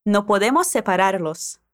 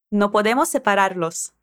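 First: No podemos separarlos, S carried over; linked S. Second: No podemos separarlos with the S of podemos flowing into separarlos; linked S. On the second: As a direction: join podemos separarlos smoothly. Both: Shown as a demonstration. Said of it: "Conectando o S das palavras".

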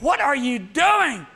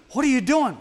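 First: Slow, high, loud outrage; outraged shout. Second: Shocked question. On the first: Onlooker yelling at the dentist, slow and high-pitched. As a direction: shout it, scandalised. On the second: Shocked onlooker at dentist. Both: Acted.

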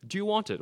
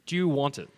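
First: Pressing repeat. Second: Said in the usual way. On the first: Shown as a demonstration. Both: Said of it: "And I wanna ask you".

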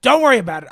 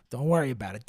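First: Higher, much louder outburst; sudden loud comic insistence; mock defensive shout. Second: Said in the usual way.

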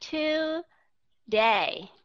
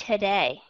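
First: Today with a full, clear to, drawn out slowly; over-clear syllables. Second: Today with the to reduced to a quick uh; light tuh in Today; weak schwa. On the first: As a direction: separate to and day carefully. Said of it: "viết rõ nó ra". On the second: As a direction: skim the first syllable of Today. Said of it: "âm thứ nhất nó là schwa sound". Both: Shown as a demonstration.

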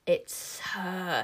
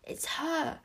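First: Drawn-out witchy hiss; hissing witches. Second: High, breath-held whisper; whispered under breath. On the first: The witches spot the girl with magic, hissing. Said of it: "hissed the witches". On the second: Wish spots her mother below, whispering. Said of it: "whispered under her breath". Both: A narrator's reading.

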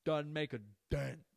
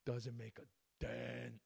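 First: Slow, loud, a touch higher, emphatic; proud quote of a catchphrase; catchphrase with a hint of Crystalia; quoting Crystalia. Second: Slow, altered voice echoing the catchphrase; quiet slow repeat of the catchphrase; quoting Crystalia softly. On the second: Retold or imitated. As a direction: echo it back, savouring it. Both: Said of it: "As Crystalia would say".

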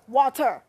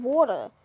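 First: Water forced out as wah-TER, r hit hard; water over-enunciated in mock anger; mock-angry water. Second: Water as wawta, r dropped; water drawn out, ending in uh; dialect water. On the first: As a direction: say water with acted exasperation. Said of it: "Why you say it so angry?". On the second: Acted. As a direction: insist on water in the local dialect. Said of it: "when you say water".

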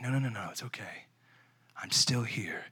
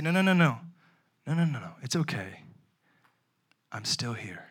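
First: Hushed whisper; whispered reassurance. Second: Put-on soothing a baby. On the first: Pretend. God whispering comfort to the abandoned, hushed. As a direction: whisper it close like to a child. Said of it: "He's looking at you saying". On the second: Father soothing his fussy newborn, softening.

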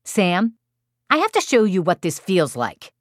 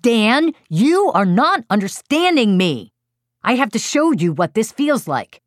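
First: Calm, logical little voice, slightly raised. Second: Loud, high, fed-up parent yelling; exasperated yell. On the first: Four-year-old to younger brother, calm logical little voice. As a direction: say it evenly, matter-of-fact, as a child. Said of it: "speaking calmly to his younger brother". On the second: Exasperated parent yells at four-year-old who keeps poking his brother, loud. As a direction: yell it at your child, at wit's end. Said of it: "I yelled". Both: Retold or imitated.

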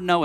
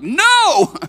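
First: Said in the usual way. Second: "No" shouted much higher and louder, drawn out; emphatic NO. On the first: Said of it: "It's not the simple word no". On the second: Shown as a demonstration. Preacher showing the congregation the Greek emphasis, "No" shouted emphatically. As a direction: blast out "No" as one long emphatic cry. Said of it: "it's an emphatic word no".

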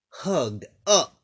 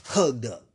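First: Hugged up pitched higher and louder, up rising at the end. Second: Said in the usual way. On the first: Shown as a demonstration. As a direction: lift the word up into a bright rise.

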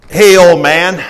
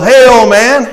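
First: Lightly acted traveler calling out, raised pitch; a louder, higher hail to an old man; friendly traveler. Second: Loud, high-pitched acted hail; brash traveler. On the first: First friendly traveler calls out. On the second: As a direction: call out pushily as the second traveler. Second, disgruntled traveler calls out.

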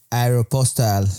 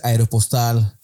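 First: "aeropostal" slowly, in an English-style pronunciation; mock correct pronunciation. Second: Said in the usual way. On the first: Girl scolds bad pronouncers, mock-teacherly "aeropostal". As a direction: draw out "aeropostal" like an English word. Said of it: "se dice aeropostal". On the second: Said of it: "gente que pronuncia malas cosas".

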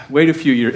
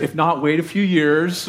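First: Louder punchline. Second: Said in the usual way. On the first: Acted. Joke punchline to the congregation.

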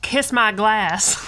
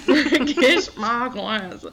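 First: Slow, drawn-out mock southern twang; imitating Gacy. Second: Very slow, drawn-out mock accent, a bit louder; imitating Gacy. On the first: Host quoting Gacy in a slow mock southern accent. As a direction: drag out a southern drawl as the killer. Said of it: "as Gacy would say". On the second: Cohost repeating the Gacy line in a slow mock accent. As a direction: stretch each word in a bad impression. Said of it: "I can't even do his accent".

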